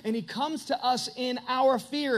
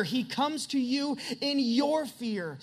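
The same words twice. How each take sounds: First: Said in the usual way. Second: Slower, leaning hard on "your" in "in your fear"; slow down and press "your" home to the listener; "your" drawn out and stressed, turning it personal. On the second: Shown as a demonstration.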